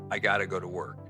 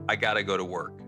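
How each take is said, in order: First: Got to is reduced with a D-like sound. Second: Got to is reduced with a D-like sound.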